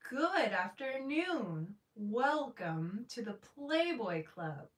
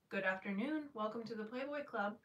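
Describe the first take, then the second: First: It sounds warm, delighted and smiling. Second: It sounds flat and not very welcoming.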